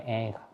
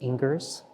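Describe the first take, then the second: First: The name ends without an 'ers' sound. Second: The name ends with an 'ers' sound. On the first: The speaker calls it right. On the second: The speaker calls it wrong.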